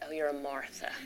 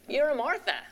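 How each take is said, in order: First: It sounds disapproving and condescending. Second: It sounds warm and accepting.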